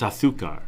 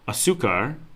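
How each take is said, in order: First: Spain accent, the z sounds like th. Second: Nicaraguan accent, the z sounds like s.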